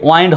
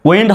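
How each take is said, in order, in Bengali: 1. স্বরধ্বনিটি দীর্ঘ 'eye' ধ্বনি। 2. স্বরধ্বনিটি হ্রস্ব 'i' ধ্বনি। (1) "নাকি ওয়াইন্ড হবে" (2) "উইন্ড হবে"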